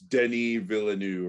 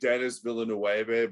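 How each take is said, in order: First: The name is said the French way. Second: The name is read the English way. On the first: This is how the name is actually said. The speaker calls it right. "it's Denis Villeneuve or something like that" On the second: This is how the name looks when written. The speaker calls it wrong. "it looks like Dennis Villeneuve, but like something like that. But it is not pronounced like that at all"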